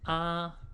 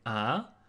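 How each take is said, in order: First: The pitch stays high and level. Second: The pitch rises toward the end. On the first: It expresses surprise. "The first one is the first tone" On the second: It expresses doubt or asks for an answer. "it's pronounced in the second tone"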